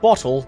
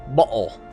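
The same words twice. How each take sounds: First: It is said in a plain American accent. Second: It is said in a British accent. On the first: The speaker calls it wrong. "Not bottle" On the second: The speaker calls it right. "As the Brits would say"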